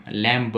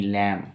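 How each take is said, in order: First: लैम्प said as "lam-b", b released at the end; sounded final B. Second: लैम said as "lam", with no b; silent final B. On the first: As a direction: wrongly voice the silent B in लैम्प. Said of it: "नहीं". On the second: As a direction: end लैम on the m. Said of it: "इसको बोलते हैं English में लैम". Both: Shown as a demonstration.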